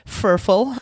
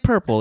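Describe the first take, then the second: First: The word begins with an f sound. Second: The word begins with a p sound. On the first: The speaker calls it wrong. "overcompensate for the the different uh, letters like V and B and F" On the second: The speaker calls it right. "it's actually purple. It's fine. You can use the P's"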